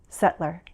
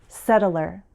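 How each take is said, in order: First: The word is said with one syllable dropped. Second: The word is said with its full syllables.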